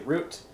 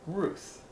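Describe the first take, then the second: First: The word ends in a hard t sound. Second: The word ends in a soft th sound. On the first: The speaker calls it wrong. "we might say root" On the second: The speaker calls it right. "it's actually pronounced Ruth"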